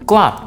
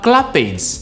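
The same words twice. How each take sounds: First: The ending is a short t sound. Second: The ending is not a short t sound. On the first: The speaker calls it right. "Le passé c'est clapped" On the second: The speaker calls it wrong. "Vous ne dites pas clapped"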